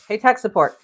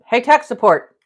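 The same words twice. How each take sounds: First: Loud call to someone nearby. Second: Calling out louder and higher. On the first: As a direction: call out across the house. Calling helper from another room. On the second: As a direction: call again, much louder and higher. Calls again, helper not answering. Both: Real, not acted.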